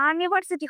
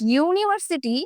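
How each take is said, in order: First: The word begins with an "uh" sound. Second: The word begins with a "yoo" sound. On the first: The speaker calls it wrong. "আনিভার্সিটি হয় না" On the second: The speaker calls it right. "এই ইউটার আ এর মতো উচ্চারণ হয় না"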